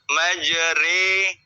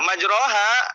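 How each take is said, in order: First: The vowel after r sounds like 'e'. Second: The vowel after r is a clear 'a'. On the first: The speaker calls it right. "Imala itu bacaan antara dhammah dengan kasroh... bunyi tempe, sate" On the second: The speaker calls it wrong. "akan ada kesalahan namanya kesalahan khufi"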